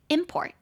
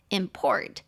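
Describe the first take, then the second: First: The stress is on the first syllable. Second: The stress is on the second syllable. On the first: It is a noun. "重音节在前面是名词" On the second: It is a verb. "重音节在第二import 就会是输入进口的动词"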